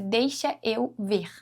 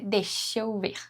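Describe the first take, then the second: First: Deixa and eu are said separately, final A kept. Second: Deixa and eu are joined, final A dropped. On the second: "nós juntamos o deixa com o eu"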